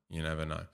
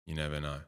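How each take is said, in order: Both takes have the same delivery.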